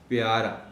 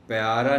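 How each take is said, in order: First: A clear i vowel follows the p. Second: The p runs straight into y without a vowel. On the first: The speaker calls it right. "पे के नीचे ज़ेर नुमायाँ तौर पर नज़र आए" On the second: The speaker calls it wrong. "प्यारा नहीं कहना"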